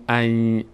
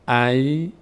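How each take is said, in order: First: The syllable ends with a y sound. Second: The same.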